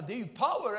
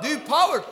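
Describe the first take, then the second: First: Said in the usual way. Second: Louder and higher, full preacher force; loud preaching. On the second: Acted. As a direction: shout POWER out to the crowd. Repeats phrase, rousing crowd. (ropat med kraft)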